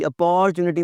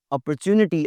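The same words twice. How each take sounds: First: "अपॉर्चुनिटी" as a-PORE-chu-ni-tee; wrong "opportunity". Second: "अपॉर्चुनिटी" as op-er-CHU-ni-tee; correct "opportunity". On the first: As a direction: lengthen and stress "por" in "अपॉर्चुनिटी". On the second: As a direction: keep the second syllable of "अपॉर्चुनिटी" short and light. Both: Shown as a demonstration. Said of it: "अपॉर्चुनिटी नहीं कहना जी".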